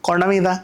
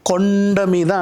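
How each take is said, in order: First: The phrase is said flatly with little emphasis. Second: The phrase is said big with heavy emphasis. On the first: The speaker calls it wrong. "అనకూడదు" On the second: The speaker calls it right. "అంటాం. ఎందుకంటే కొండ అంత ఉంటుంది కదా, నీ నోట్లో కూడా అది పలకాలి"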